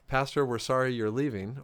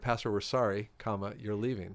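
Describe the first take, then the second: First: It flows with no pause after sorry. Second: There is a break after sorry.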